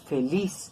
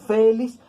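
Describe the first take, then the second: First: The stress is on the last syllable. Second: The stress is on the first syllable. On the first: The speaker calls it right. "pronunciamos feliz" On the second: The speaker calls it wrong. "No pronunciamos feliz"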